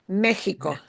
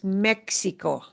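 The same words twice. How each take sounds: First: The middle x sounds like h. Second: The middle x sounds like ks. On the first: The speaker calls it right. "it'll often sound like a h sound" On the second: The speaker calls it wrong. "We should never pronounce this"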